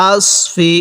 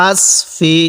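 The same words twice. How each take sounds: The two takes are said the same way.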